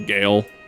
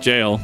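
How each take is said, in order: First: The word starts with a hard G sound. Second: The word starts with a J sound. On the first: The speaker calls it wrong. "People say Gale" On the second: The speaker calls it right. "it's just jail"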